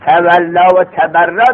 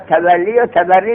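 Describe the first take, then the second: First: Both words end in a long 'aa' vowel. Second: Both words end in a long 'ee' vowel. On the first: The speaker calls it wrong. "غلطیست مشهور" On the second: The speaker calls it right.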